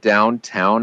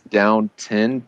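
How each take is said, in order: First: The second syllable sounds like "town". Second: The second syllable sounds like "ton". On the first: The speaker calls it wrong. "it's not Downtown Abbey" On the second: The speaker calls it right. "It's Downton, T O N"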